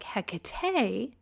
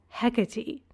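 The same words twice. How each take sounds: First: The name ends without an 'ee' sound. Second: The name ends with an 'ee' sound. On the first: "pronounce it differently" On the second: "like similarly spelled names ... like Persephone"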